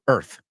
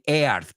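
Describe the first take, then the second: First: The word is said as one syllable. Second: The word is split into two vowel syllables. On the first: The speaker calls it right. "pero quiero decirlo, earth. Y te quitas esa A" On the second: The speaker calls it wrong. "Dicen earth, quieren usar las dos sílabas, los dos vocales"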